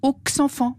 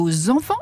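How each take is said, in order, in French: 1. Le x final ne se lie pas en z. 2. Le x final se lie en son z. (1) "et non" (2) "se prononcent « z » au lieu de se prononcer « s » ou « x »"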